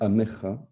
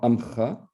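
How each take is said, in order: First: The word has three syllables, with a middle vowel. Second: The word has two syllables, without a middle vowel. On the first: The speaker calls it right. "c'est bien Amecha" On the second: The speaker calls it wrong. "On chante souvent Amcha"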